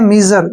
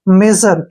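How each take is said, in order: First: The first vowel is a long 'ee' sound. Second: The first vowel is a short 'eh' sound. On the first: The speaker calls it wrong. "इसको अक्सर हम क्या पढ़ते हैं, मीजर, जो कि गलत है" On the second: The speaker calls it right. "यानी कि मेजर"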